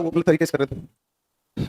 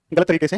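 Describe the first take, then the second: First: Slowed right down, word by word; slow deliberate repeat. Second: Said in the usual way. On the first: Shown as a demonstration. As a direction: spell it out slowly for the class. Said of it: "एक बार जरा बताओ".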